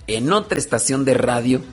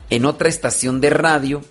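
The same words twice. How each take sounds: The two takes are said the same way.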